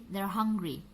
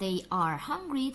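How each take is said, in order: First: The word are is reduced and joined on. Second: The word are is said in full. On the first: The speaker calls it right. "tapi they're hungry" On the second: The speaker calls it wrong. "bukan they are hungry"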